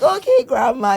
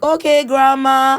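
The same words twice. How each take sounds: First: Higher, slowish breezy brush-off; imitating her sons. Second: Higher, louder, slow dismissive drawl; imitating her sons. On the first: Mother mimics her boys shrugging off grandma, higher and breezy. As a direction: toss it off like a kid ignoring grandma. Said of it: "They're just like". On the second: Mother mimics her boys brushing off grandma, high, loud and slow. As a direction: brush her off slowly and breezily. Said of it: "now they're like".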